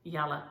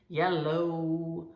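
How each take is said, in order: First: The word ends in a short 'uh' sound. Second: The word ends in a long 'oh' sound. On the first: "I never thought about how I say yalla" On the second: "I don't say yellow. O sounds for me are very, that's tiresome"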